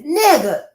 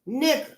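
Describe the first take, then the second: First: It is said in a celebratory, excited tone. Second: It is said in a disbelieving, smirking tone. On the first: It celebrates good news. "It is meant to emphasize or celebrate the setup" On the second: It expresses disbelief. "it is an expression of disbelief, spiked with a smirk"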